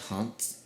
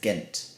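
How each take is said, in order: First: The name begins with an H-like sound. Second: The name begins with a hard G sound. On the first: This is how the locals say it. The speaker calls it right. "And it was called Hanth" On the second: This is how an English speaker says it. The speaker calls it wrong. "I pronounced the place I went to as Ghent"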